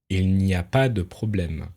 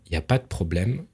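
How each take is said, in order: First: The vowel in de is fully pronounced. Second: The vowel in de is dropped.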